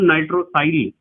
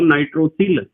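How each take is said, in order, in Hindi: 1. अंतिम अक्षर में लंबा 'eye' स्वर है। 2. अंतिम अक्षर में छोटा 'i' स्वर है। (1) "यदि मैं बोलता हूं नाइट्रोसाइल" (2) "हिंदी में इसे नाइट्रोसिल कहते हैं"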